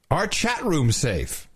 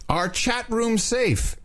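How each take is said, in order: First: Said in the usual way. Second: Drawn out slowly, ending high; slow dramatic reading. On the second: Shown as a demonstration. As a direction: stretch every word for effect. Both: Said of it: "Listen up, chat room".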